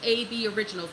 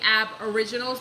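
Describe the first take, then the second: First: The start is said as two letters, 'A B'. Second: The start is said as one syllable, 'ab'. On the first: The speaker calls it right. "but it's A B Originals" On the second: The speaker calls it wrong. "I'm saying Ab Originals"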